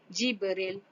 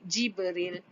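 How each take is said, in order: Both takes have the same delivery.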